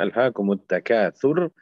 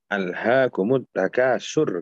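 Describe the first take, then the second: First: The last consonant is a th sound. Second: The last consonant is a plain s sound. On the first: The speaker calls it right. "Mestinya alhaakumut takatsur" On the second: The speaker calls it wrong. "Alhaakumut takasur kata dia"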